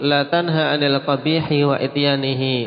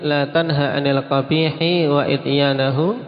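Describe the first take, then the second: First: The last word ends with the vowel i: ihi. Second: The last word ends with the vowel a: ahu. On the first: Do not forbid evil nor forbid doing it. The speaker calls it wrong. "kalau dibaca majrur" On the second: Do not forbid evil while doing it yourself. The speaker calls it right. "yang seperti ini wajib dibaca nasab"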